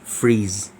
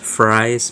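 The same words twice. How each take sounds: First: The name is pronounced the German way. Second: The name is pronounced the usual English way. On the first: "when you pronounce it in German, it's Fries" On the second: "We pronounce it as Fries"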